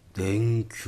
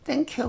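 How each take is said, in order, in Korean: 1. 이 단어는 낮고 깊은 음으로 말해요. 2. 이 단어는 높은 음으로 말해요.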